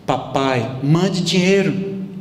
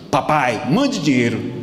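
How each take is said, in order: First: The request sounds soft and affectionate. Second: The request sounds harsh and demanding. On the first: The son is asking kindly and lovingly. The speaker calls it right. "Foi assim, ó" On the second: The son is being rude and ungrateful. The speaker calls it wrong. "Isso é modo de falar com o pai?"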